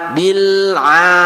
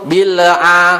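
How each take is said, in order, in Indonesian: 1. Bunyi L ditahan halus tanpa pantulan. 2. Bunyi L dipantulkan dengan gema. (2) "jangan sampai ... lam sukun atau lam mati di situ dipantulkan"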